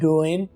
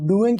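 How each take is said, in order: First: The word ends without any g sound. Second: The word ends with a clear g sound. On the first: "आखिरी जी आप silent" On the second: "डूइंग की बजाय"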